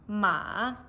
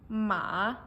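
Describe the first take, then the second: First: The pitch falls and then rises. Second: The same.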